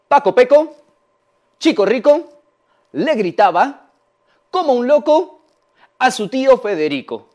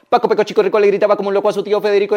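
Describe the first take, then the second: First: It is spoken slowly, step by step. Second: It is spoken extremely fast. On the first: "Vamos paso a paso con este trabalenguas" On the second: "Lo decimos súper rápido"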